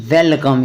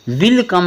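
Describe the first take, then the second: First: वेलकम said with a short e, like welcome; वेलकम, first vowel as e; correct reading. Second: विल कम said with an i sound, like will come; विल कम, first vowel as i; wrong reading. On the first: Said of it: "इसको पढ़ना है". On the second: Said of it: "विल कम नहीं". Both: Shown as a demonstration.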